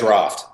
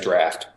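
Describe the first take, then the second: First: It is said in a non-American accent. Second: It is said in an imitated American accent. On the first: "we say draft" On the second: "I do a terrible American accent"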